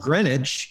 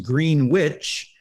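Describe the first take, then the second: First: The word is said fast. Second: The word is said slowly.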